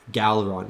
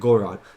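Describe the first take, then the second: First: The name is said with an L sound. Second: The name is said without an L sound. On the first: "everyone in the show pronounces it Galron, like with an L" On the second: "that's how I would say it"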